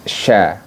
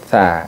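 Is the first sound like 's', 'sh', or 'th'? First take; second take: sh; th. First: The first sound is a sh. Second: The first sound is a th. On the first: The speaker calls it wrong. "bukan sya" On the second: The speaker calls it right. "tapi tha"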